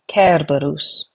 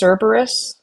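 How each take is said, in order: First: The name is said with Latin pronunciation. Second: The name is said with English pronunciation. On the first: The speaker calls it right. "it should actually be pronounced, at least in Latin" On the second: The speaker calls it wrong. "We would pronounce this as Cerberus"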